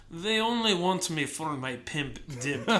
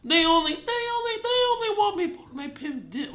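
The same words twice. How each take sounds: First: Put-on slow, lightly done Russian accent. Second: High, stuttering sampler replay; keyboard sampler imitation. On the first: Host retells a drunken song take, Russian accent. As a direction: draw it out with a slight Russian accent. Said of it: "did it in a Russian accent". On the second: Host mimics the song sample played on keys, high and stuttering. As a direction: repeat the opening like a triggered sample, pitched high. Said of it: "playing it on the keyboard".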